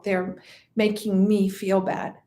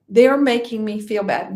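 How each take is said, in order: First: Low voice, leaning on "me"; "me" stands out as the weighted word; stress on ME. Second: "They're" hit loudest, the rest falling away; stress on THEY'RE. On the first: Voicing a self-pitying thought to the class, stress on "me". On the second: Repeating a blaming thought to the class, stress on "They're". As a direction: punch "They're" at the front. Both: Acted.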